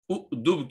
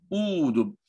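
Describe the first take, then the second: First: उदुब with a short first u; wrong short vowel. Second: ऊदुब with a long first oo; long first vowel. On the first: Teacher contrasts the wrong form for students, short उदुब. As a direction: say उदुब quickly, the form to avoid. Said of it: "उदुब की जगह". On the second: Teacher gives students the correct form, long ऊदुब. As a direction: lengthen the oo at the start of ऊदुब. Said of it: "वाव से बदलना पड़ेगा". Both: Shown as a demonstration.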